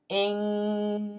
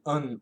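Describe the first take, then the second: First: The ending has a back, throaty ng sound. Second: The ending has an uh vowel before n. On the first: "We can say ing, back in the throat" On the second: "we can say un"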